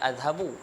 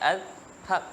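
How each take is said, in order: First: The word ends with a final vowel sound. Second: The word ends on a consonant sound. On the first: The speaker continues without stopping. "kalau tak berhenti kita akan baca azhabu" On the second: The speaker stops at this word. "kalau berhenti azhab tu ketika waqaf"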